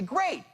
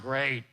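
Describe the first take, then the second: First: It sounds genuinely happy and warm. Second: It sounds insincere and flat.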